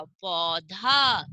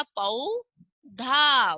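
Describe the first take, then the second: First: Said in the usual way. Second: Very slow पौधा; slow demo of पौधा; drawn out. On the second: Shown as a demonstration. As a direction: stretch each sound of पौधा. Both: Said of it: "उच्चारण एकदम सही सही होना चाहिए".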